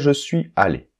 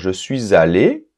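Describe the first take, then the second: First: No z sound links suis to allé. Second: A z sound links suis to allé. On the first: This is also acceptable. "mais c'est pas obligatoire" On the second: This is the usual everyday way. "On a l'habitude de dire ça généralement"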